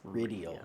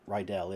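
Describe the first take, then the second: First: The name is said with three syllables. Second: The name is said with two syllables. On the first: The speaker calls it right. "Three vowels, three syllables" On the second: The speaker calls it wrong. "It's not Rydell"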